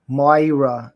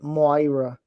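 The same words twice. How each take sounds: First: Slow New York accent on "Moira", drawn out with a falling end; "When Moira" stretched out in a mild New York accent. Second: A light Italian accent on "Moira", MOY-ra with a falling end; "Moira" said lightly Italian so the name comes out right. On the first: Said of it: "I have to do a New York accent to do her name right". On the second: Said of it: "I have to do an Italian accent to know". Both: Shown as a demonstration.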